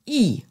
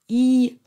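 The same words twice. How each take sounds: First: The syllable is said with the fourth tone. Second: The syllable is said with the first tone. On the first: "der vierte Ton" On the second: "Der erste Ton wird als I ausgesprochen"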